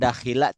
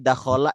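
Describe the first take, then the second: First: The second vowel is i. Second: The second vowel is a. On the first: The speaker calls it wrong. "tidak akan dakhila" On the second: The speaker calls it right. "Kita sudah hafal nih dakhola"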